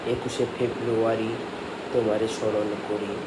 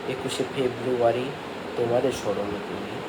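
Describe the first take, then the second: Both takes have the same delivery.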